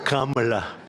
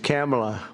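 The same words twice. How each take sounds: First: The first syllable sounds like 'calm'. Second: The first syllable sounds like 'cam'. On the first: This is the other, more familiar name. "as opposed to Calm" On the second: This is the guest's own name. "It's Cam"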